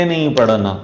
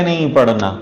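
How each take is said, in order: The two takes are said the same way.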